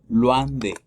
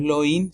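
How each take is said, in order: First: Slow "loin de" as "lwan de"; correct WA sound. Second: "loin" read "lo-in", no wa; wrong spelled-out loin. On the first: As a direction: stretch "loin" with a wa glide. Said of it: "sino loin de". (loin de lento, con sonido wa) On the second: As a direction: mispronounce "loin" with plain O and I. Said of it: "no es loin". (loin mal dicho, como lo-in) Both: Shown as a demonstration.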